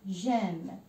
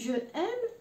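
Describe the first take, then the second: First: The vowel of je is dropped before aime. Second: The vowel of je is kept before aime. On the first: The speaker calls it right. "نحي هذا الاو ونعمل مكانه اون apostrophe" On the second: The speaker calls it wrong. "ثقيله ثقيله على اللسان"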